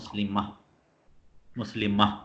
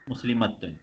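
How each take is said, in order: First: The word ends with a soft h sound. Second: The word ends with a full -tun ending. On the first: The reciter stops on this word. "ഹ ആയി മാറും" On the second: The word continues into what follows. "മുസ്ലിമത്തുൻ എന്നാണ് ഇവിടെ ഉള്ളത്"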